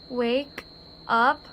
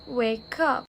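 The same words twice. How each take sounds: First: The two words are said separately. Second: The k sound joins onto the second word.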